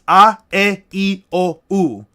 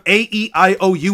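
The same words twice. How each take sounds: First: The vowels sound like steady pure vowels. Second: The vowels sound like English letter names. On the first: The speaker calls it right. "all the vowel sounds are constant" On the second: The speaker calls it wrong. "Instead of"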